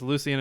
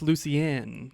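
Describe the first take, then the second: First: The name ends with a short, plain N. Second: The name ends with a drawn-out N.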